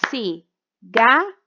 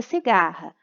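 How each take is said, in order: First: Cigarra split slowly into ci, gar, ra; syllable by syllable. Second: Said in the usual way. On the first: Shown as a demonstration. Teacher showing a clap per syllable, cigarra broken into slow beats. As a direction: say cigarra in three separate beats with clear gaps. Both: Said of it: "fazerem a separação da sílaba".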